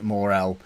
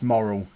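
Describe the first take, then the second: First: It does not sound like the word moral. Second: It sounds just like the word moral. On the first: The speaker calls it wrong. "I'm not going to say it Morel. That just seems wrong" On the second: The speaker calls it right. "It's moral"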